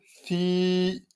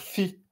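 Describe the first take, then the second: First: The vowel is long. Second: The vowel is short. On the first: The speaker calls it right. "on va dire fi. Vous voyez, j'ai rajouté un petit I" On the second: The speaker calls it wrong. "on va pas dire fi"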